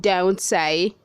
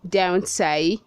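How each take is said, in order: The two takes are said the same way.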